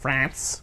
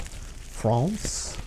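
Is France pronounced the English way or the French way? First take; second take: English; French. First: France is said with an English pronunciation. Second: France is said with a French pronunciation. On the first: The speaker calls it wrong. "not France" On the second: The speaker calls it right. "This is the correct way to say it"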